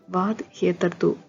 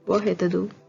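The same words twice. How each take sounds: First: The d at the end of vad is pronounced. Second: The d at the end of vad is silent. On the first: "This is how you read it in English" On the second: "when you say it in Swedish, the D in vad becomes silent"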